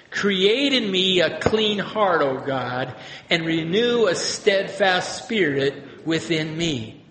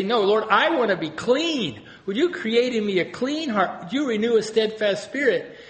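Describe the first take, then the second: First: Slow, measured prayer reading; prayer read aloud. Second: Higher, asking gently; pleading prayer. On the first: Shown as a demonstration. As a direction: read it slowly, like scripture. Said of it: "this can be a prayer". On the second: Retold or imitated. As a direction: plead with the Lord to be made clean. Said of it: "or you can say".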